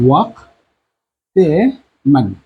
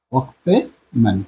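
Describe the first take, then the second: First: ওয়াক্তে মান stretched out while writing; slow dictation. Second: Said in the usual way. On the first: Shown as a demonstration. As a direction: say ওয়াক্তে মান very slowly, drawn out. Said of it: "teacher dictating phrase". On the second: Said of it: "repeat at normal pace".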